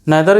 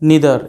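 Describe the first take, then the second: First: The first vowel sounds like 'eye'. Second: The first vowel sounds like 'ee'.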